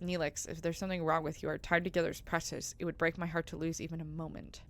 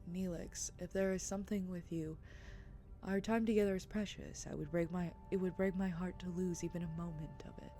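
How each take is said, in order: First: It is said in the speaker's own voice. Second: It is said imitating Kes's voice.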